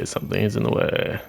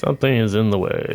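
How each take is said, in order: First: Breathy whisper of the same line; hushed muttered repeat. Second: Said in the usual way. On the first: Shown as a demonstration. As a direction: whisper it to yourself. Repeats the same game message.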